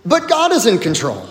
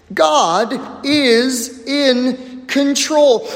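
First: Said in the usual way. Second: God is in control, drawn out and slow; slow emphatic repeat. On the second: Shown as a demonstration. Preacher drives the point home, slow and emphatic. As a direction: lean on each word, very slowly.

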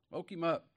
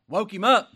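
First: Said in the usual way. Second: A sudden high, loud shout on up. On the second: Real, not acted. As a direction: burst out loud like a wake-up call. Preacher shouts the Lord woke Jacob.

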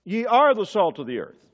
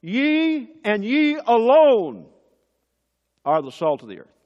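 First: "are" leaned on, falling firmly; plain declaration with "are" stressed; "are" given a firm falling accent. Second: "Ye and ye alone" slow, higher and louder, each "ye" hammered; "Ye and ye alone" stretched out loud and high; emphatic ye alone. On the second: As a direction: drive home "ye alone" slowly. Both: Shown as a demonstration. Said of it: "the Greek is even more emphatic".

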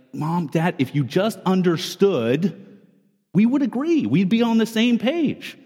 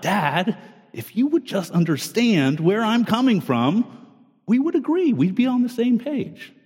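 First: Put-on pleading child. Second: Put-on a kid insisting to dad, pitch jumping much higher on agree; whiny kid sure dad just doesn't get it; pleading kid. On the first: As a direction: plead like a kid sure they're right, a touch whiny. Child voiced arguing with parents. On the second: His children voiced arguing with him.

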